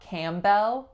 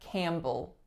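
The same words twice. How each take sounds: First: The second syllable has a full 'bell' vowel. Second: The second syllable is reduced to a schwa. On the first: The speaker calls it wrong. "So not Campbell" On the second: The speaker calls it right. "but Campbell, it's reducing to schwa"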